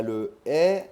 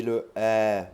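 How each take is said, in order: First: E as a long closed é; first E sound. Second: E as a long open è; second E sound. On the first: Teacher contrasting vowels for learners, E said as closed é. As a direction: hold a tight é for E. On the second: Teacher contrasting vowels for learners, E said as open è. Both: Shown as a demonstration. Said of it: "Essayez de bien faire la différence".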